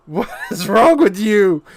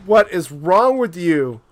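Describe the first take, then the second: First: The question broken by a real laugh; laughing disbelief. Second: Said in the usual way. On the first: Real, not acted. Repeats it, laughing at AI.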